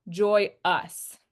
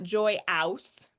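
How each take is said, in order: First: Joy-us with a reduced uh ending; correct schwa. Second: Joy-ouse with the ow sound; wrong ow vowel. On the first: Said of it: "this is not joy-ouse". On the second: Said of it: "this is not". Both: Shown as a demonstration.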